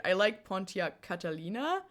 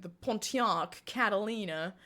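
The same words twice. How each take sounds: First: Slight German accent on the car name. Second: Said in the usual way. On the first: Real, not acted. Streamer names a favorite car, accidental German accent. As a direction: let a German accent slip into Pontiac Catalina. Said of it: "said that with a German accent". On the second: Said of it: "I don't know why I said that".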